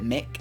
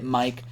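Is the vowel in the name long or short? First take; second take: short; long. First: The vowel is short, like in 'sit'. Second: The vowel is long, like the word 'eye'. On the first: "some people pronounce it Mick" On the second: "M I C is pronounced Mike"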